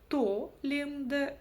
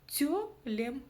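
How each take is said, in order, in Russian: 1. Первый гласный очень твёрдый, как о. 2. Первый гласный очень мягкий, как ё. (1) "прочитаем сейчас через О, ... это тоже будет очень твердо" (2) "буква Ё будет звучать очень и очень мягко"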